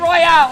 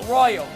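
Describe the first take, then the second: First: The name is said like royale, ending in 'ale'. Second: The name is said like the word royal. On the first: The speaker calls it wrong. "Don't say Royale" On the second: The speaker calls it right. "It's not Royale"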